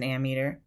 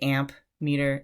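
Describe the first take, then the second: First: It has no P sound before 'meter'. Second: It has a clear P sound before 'meter'. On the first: The speaker calls it right. "it's an ammeter" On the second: The speaker calls it wrong. "don't say amp meter"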